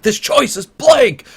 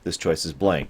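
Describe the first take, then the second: First: It is said with more anger. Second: It is said with slight anger.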